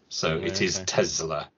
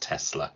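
First: The middle consonant is a buzzing z sound. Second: The middle consonant is a hissing s sound. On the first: The speaker calls it right. "With the Z, not Tesla with the S" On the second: The speaker calls it wrong. "not Tesla with the S"

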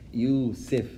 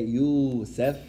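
First: The vowel after the s is i. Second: The vowel after the s is a.

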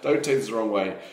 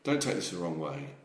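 First: It is said in a less breathy voice. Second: It is said breathy and cockney, like Bowie.

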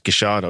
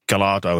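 First: The double L sounds like sh. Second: The double L sounds like an English L. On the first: This is how the name is said in Buenos Aires. The speaker calls it right. "but it's Gichardo" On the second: This is the anglicised way of saying the name. The speaker calls it wrong. "as you would say it, in an anglicised version"

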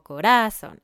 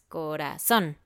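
First: The stress is on the middle syllable. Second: The stress is on the last syllable. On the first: The speaker calls it wrong. "o corazón" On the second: The speaker calls it right. "es corazón"

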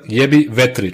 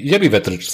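First: The name is said very slowly. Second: The name is said at normal speed.

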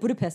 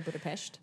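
First: The name is given the everyday common pronunciation. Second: The name is given an unusual, fancier pronunciation. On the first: It is the way everyone says it. The speaker calls it right. "It's called Budapest like everyone else" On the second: It sounds a bit pretentious. The speaker calls it wrong. "if you're my sister, you'd say Budapest. My sister loves saying that"

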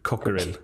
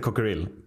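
First: The first vowel is long. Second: The first vowel is short. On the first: The speaker calls it right. "Med långt ord där i början" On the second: The speaker calls it wrong. "Inte Cockerill"

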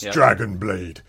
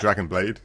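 First: It is said in a deep, dramatic put-on voice. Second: It is said in a flat, ordinary voice. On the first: The speaker calls it right. "You've got to say it in that voice" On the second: The speaker calls it wrong. "you can't just say Dragon Blade. You know, that's just boring"

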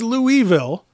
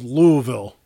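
First: The first part has two syllables. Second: The first part has one syllable. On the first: The speaker calls it wrong. "I thought it was Louisville" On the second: The speaker calls it right. "There's no second syllable to that vowel. It's just Louisville"

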